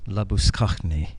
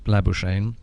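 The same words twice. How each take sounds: First: The name is pronounced the Afrikaans way. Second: The name is pronounced the English way. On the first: "the Afrikaans pronunciation of that name is" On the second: "the English pronunciation of that South African name is"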